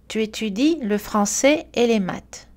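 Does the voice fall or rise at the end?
fall. The pitch falls at the end. It is a statement. "L'accentuation descendante est utilisée pour finir une phrase affirmative"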